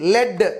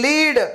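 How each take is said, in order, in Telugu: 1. ఈ అచ్చు హ్రస్వంగా ఉంది, 'bed' లాగా. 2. ఈ అచ్చు దీర్ఘంగా ఉంది, 'see' లాగా. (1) "సీసము" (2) "నాయకత్వం వహించడం"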